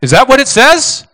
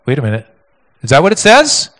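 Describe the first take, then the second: First: Louder challenge. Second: Mock surprise. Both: Shown as a demonstration.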